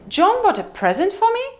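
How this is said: The pitch rises from mid to high on present. "Or high rise"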